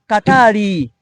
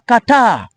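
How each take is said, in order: First: An extra vowel is added after the r. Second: The final r is silent. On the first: "in Tanzania, they pronounce it as Katari" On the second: "In Uganda, they pronounce it as Qatar. R is silent"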